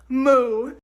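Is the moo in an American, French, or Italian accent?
American. It is a moo in an American accent.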